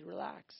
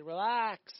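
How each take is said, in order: First: Softer, calm relax to himself; repeating relax to himself. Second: Firm reassuring relax; a touch of divine calm, said plainly; God telling him to relax. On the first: Preacher echoing God's word to himself, softer and calmer. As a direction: let it out gently, settling down. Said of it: "I said". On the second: God telling the psalmist to relax, in a firm reassuring tone. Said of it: "and God said". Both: Retold or imitated.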